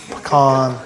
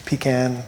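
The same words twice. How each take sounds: First: "pecan" as puh-CAHN, the second syllable stressed with an ah sound; "pecan" pronounced puh-CAHN, the first vowel reduced. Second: "Pecan" as PEE-can, the first syllable stressed and long; "Pecan" pronounced PEE-can, the can rhyming with man. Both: Shown as a demonstration. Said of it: "How do you say pecan?".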